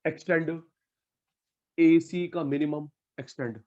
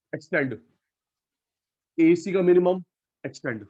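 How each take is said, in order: Both takes have the same delivery.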